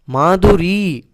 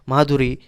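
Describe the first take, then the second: First: The final vowel is long. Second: The final vowel is short. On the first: The speaker calls it right. "ऐसे बड़ा वाला ई होना है" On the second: The speaker calls it wrong. "ऐसे छोटे इकार बोलते हैं, लेकिन वो रॉन्ग है"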